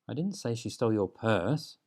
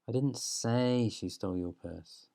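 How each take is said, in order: First: The stress falls on the word 'purse'. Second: The stress falls on the word 'say'.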